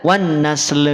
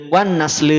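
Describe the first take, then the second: First: The final l is followed by a short vowel. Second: The final l stops with no added vowel. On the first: The speaker calls it wrong. "Tidak wan nasl. ... ada le-nya" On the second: The speaker calls it right. "hati-hati tidak ada le-nya"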